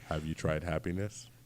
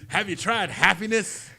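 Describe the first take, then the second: First: It is said in a creepy tone. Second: It is said in an upbeat, happy tone.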